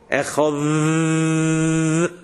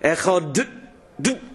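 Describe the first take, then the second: First: The final consonant is a lengthened th sound. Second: The final consonant is a stop d. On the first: The speaker calls it right. "if you pronounce it more as a d, echod d, no problem" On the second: The speaker calls it wrong. "How can you lengthen a sound? D. You can't lengthen it"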